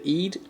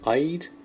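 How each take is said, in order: First: The word rhymes with feed. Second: The word does not rhyme with feed. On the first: The speaker calls it right. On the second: The speaker calls it wrong.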